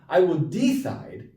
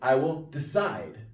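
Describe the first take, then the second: First: The stress is on the first syllable of decide. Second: The stress is on the second syllable of decide. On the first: The speaker calls it wrong. "It's not I will decide" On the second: The speaker calls it right. "the second syllable, side, that's pronounced"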